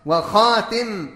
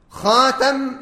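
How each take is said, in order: First: وخاتم with a short "i" after the ta, wa-khatim; kasra on the ta. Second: خاتم with a short "a" after the ta, khatam; fatha on the ta. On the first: Teacher showing the second Quran reading, وخاتم said wa-khatim with kasra. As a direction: say وخاتم as "wa-khaa-tim". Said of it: "بكسر التاء". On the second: Teacher showing the first Quran reading, خاتم said khatam with fatha. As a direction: say خاتم as "khaa-tam", open second vowel. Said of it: "بالفتح أي بفتح التاء". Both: Shown as a demonstration.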